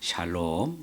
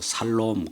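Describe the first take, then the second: First: The word begins with an "sh" sound. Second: The word begins with a plain "s" sound. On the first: The speaker calls it right. "샬롬 이렇게 발음하시기 바라고요" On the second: The speaker calls it wrong. "어떤 사람은 발음 잘못해서 살롬 그러는데"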